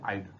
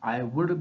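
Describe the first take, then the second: First: The words are shortened into one syllable. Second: Both words are said in full, two syllables. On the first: "हमने short कर दिया आइड" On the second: "आई वुड बोलने की बजाय"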